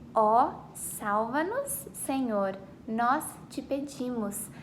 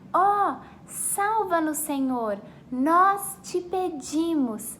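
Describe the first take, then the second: First: It is said at normal volume. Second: It is shouted very loudly.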